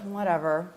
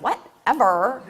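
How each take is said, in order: First: It is said flatly, sounding bored. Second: It is said sassily, with lots of attitude. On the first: "might sound kind of bored" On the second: "might have a lot of attitude"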